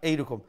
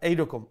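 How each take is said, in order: Both takes have the same delivery.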